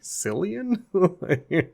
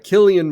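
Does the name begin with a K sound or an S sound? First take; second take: S sound; K sound. First: The name begins with a soft S sound. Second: The name begins with a hard K sound. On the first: The speaker calls it wrong. "It's just spelled with a C, and so I'm always like" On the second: The speaker calls it right. "that sounds more correct"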